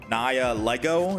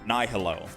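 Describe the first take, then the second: First: A clear G sound is heard in the name. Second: No G sound is heard in the name. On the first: "Someone in my chat is saying I have to pronounce it Naya Lego" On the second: "I thought the G was silent"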